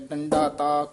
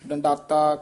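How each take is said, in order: First: There is a break before the final syllable. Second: The syllables are joined into one word. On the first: The speaker calls it right. "ਇਸ ਤਰ੍ਹਾਂ ਬੋਲਣਾ" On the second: The speaker calls it wrong. "ਇਉਂ ਨਹੀਂ ਉਚਾਰਨ ਕਰਨਾ"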